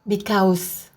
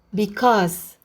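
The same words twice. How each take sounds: First: The second syllable has a gliding 'a-u' vowel. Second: The second syllable has a single 'o' vowel. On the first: The speaker calls it wrong. "Jadi bukan because. Bukan dibaca sebagai A U" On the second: The speaker calls it right. "A dan U dibunyikan O"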